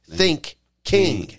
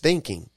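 First: It is split into two parts, think and king. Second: It is said smoothly as one ordinary word. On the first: It means thinking like a king. "start to think king" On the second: It means ordinary thinking with the brain. "it's not just thinking"

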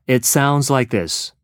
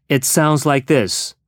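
No difference in how they are said.

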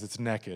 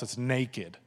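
First: It is said in a Texas accent. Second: It is said in a general accent.

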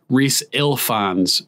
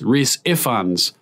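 First: The surname is said with an L sound. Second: The surname is said without an L sound. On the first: The speaker calls it wrong. "mistakenly. There's no L" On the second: The speaker calls it right. "It's Rhys Ifans"

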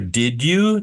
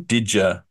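First: The words are said separately without a J sound. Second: The words blend together with a J sound.

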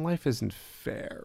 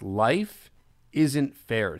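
First: It sounds like a self-pitying complaint. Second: It sounds like a plain statement of fact. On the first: Being treated unfairly is something to lament. The speaker calls it wrong. "I'm not saying it like this. Oh man" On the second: The world simply is not built to be fair. The speaker calls it right. "I'm saying in a very literal sense"

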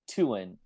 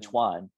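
First: The name is said close to Vietnamese. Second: The name is said like Spanish Juan. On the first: The speaker calls it right. "I think that's the closest to the Vietnamese pronunciation" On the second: The speaker calls it wrong. "It's much closer than Tuan"

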